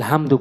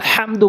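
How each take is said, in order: First: The h is a plain, light breathy h. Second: The h is a deep, tense throat h. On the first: The speaker calls it wrong. "95% লোক আমরা ভুল করে উচ্চারণ করে থাকি" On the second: The speaker calls it right. "ওখানে বড় হা, ওখানে আলহামদু বলতে হবে।"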